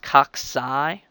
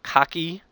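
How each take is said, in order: First: The second C is said as an S sound. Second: The second C is said as a K sound. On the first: The speaker calls it right. "that second C has a S sound" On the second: The speaker calls it wrong. "It's not cocky"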